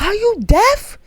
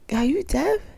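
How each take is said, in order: First: It is said loudly, almost yelling. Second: It is said at a normal, quieter volume.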